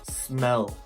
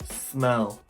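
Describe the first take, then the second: No difference in how they are said.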